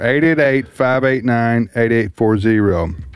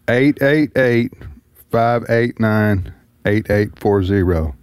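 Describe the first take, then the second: First: The number is said at normal speed. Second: The number is said slowly.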